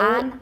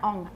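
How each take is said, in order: First: The vowel is an open a sound. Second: The vowel is a rounded o sound. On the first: The speaker calls it right. "An, not on" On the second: The speaker calls it wrong. "not on"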